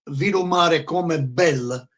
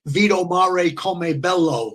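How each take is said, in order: First: The last word ends with an 'a' vowel. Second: The last word ends with an 'o' vowel. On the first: The speaker calls it right. "instead of saying" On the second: The speaker calls it wrong. "he would say"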